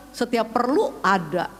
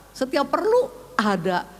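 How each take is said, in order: Both takes have the same delivery.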